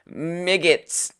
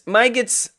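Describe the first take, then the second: First: The first vowel is a short i sound. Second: The first vowel is a long i sound. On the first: "Something about that short I next to a G is just is I don't like it" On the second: "I like my gets"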